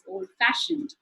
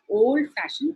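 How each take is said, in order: First: The stress falls on the word fashioned. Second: The stress falls on the word old. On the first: The speaker calls it right. "the fa sound is stressed more" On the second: The speaker calls it wrong. "It's not"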